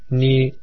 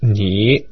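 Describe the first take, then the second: First: The pitch stays high and level. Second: The pitch dips down then rises slightly. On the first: "o primeiro tom é mais agudo e estável" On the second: "O terceiro tom desce e sobe um pouquinho"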